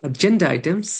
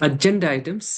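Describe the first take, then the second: No difference in how they are said.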